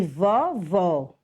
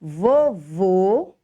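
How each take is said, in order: First: Vovó with open ó; teacher's drawn-out demo of vovó, open ó; open final vowel. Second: Vovô with closed, rounded ô; teacher's demo of vovô, closed ô; closed final vowel. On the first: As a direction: say vovó slowly with open o sounds. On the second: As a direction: say vovô slowly with closed o sounds. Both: Shown as a demonstration. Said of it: "a diferença da pronúncia".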